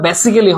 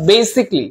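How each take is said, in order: First: "basically" in four syllables, "BE-si-ke-lee"; wrong pronunciation. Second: "basically" in three syllables, "BAY-sik-lee"; correct pronunciation. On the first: Teacher warning students off a mistake, "basically" mispronounced as "be-si-ke-lee". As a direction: sound out the "-cal-" in "basically" as a separate "ke". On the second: Teacher correcting the pronunciation for students, "basically" said as "BAY-sik-lee". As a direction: drop the middle vowel of "basically", running "k" into "lee". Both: Shown as a demonstration. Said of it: "এটার উচ্চারণটা basically হবে না".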